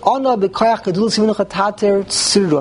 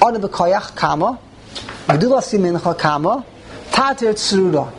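First: It is read straight through without a break. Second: It breaks after b'koyach and after yeminecha.

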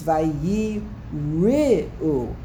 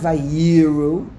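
First: The word is split with a break after 'vayi'. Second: The word is run together without a syllable break. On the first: They feared. The speaker calls it right. "It's vayi ru. They were afraid" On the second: They saw. The speaker calls it wrong. "It's not vayiru"

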